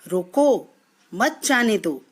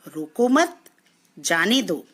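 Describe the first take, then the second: First: There is a pause right after 'roko'. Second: There is a pause right after 'mat'.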